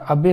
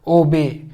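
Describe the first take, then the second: First: The first vowel sounds like 'ah', Indian/British style. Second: The first vowel sounds like 'oh', American style.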